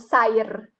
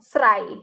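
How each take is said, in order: First: An R sound comes at the end of the word. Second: An R sound comes between S and the vowel. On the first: "atau sair" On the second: "bukan serai"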